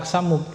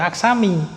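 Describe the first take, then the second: First: The word ends with an u vowel. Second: The word ends with an i vowel. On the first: The speaker calls it right. "kita juga baca aksamu" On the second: The speaker calls it wrong. "tidak kita baca aksami"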